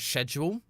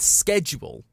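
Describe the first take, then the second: First: The word is pronounced the British way. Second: The word is pronounced the American way. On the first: "the correct pronunciation is schedule. That is the correct British pronunciation" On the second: "schedule is the American"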